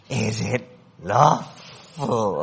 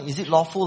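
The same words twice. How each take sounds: First: It is said in a creepy Gollum-like voice. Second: It is asked in a musing, scholarly voice.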